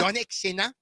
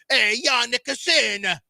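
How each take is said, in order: First: It is said in a German accent. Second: It is said in an Italian accent.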